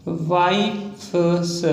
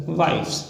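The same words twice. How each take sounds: First: Stretched out very slowly, syllable by syllable; wives stretched long and slow as if dictating; slow dictation. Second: Said in the usual way. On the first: Shown as a demonstration. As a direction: drag the word out while writing it. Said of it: "drawn out while writing". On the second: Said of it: "said again normally".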